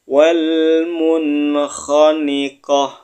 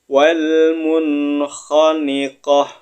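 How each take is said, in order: The two takes are said the same way.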